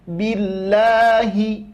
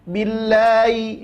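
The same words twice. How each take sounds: First: The h is pronounced clearly and distinctly. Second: The h is slurred and dragged, not clearly voiced. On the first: The speaker calls it right. "tapi jelaskan billahi" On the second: The speaker calls it wrong. "Jangan ... seolah-olah huruf ha itu terseret"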